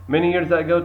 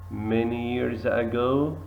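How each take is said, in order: First: The line is read at a fast speed. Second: The line is read at a slow speed. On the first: "you have to read it quickly" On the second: "And slowly, the next time"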